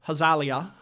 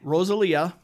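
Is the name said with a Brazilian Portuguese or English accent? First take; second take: Brazilian Portuguese; English. First: The name is said with a Brazilian Portuguese accent. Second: The name is said with an English accent.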